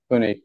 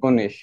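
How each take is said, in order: First: The word ends with a hard k sound. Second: The word ends with a soft sh-like sound. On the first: The speaker calls it right. "গ উচ্চারণ হবে" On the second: The speaker calls it wrong. "কনিক হবে নাকি কনিশ হবে?"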